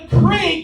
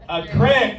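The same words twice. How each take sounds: First: Said as standard 'creek' with a long vowel. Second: Said as Southern Ohio 'crick' with a short vowel.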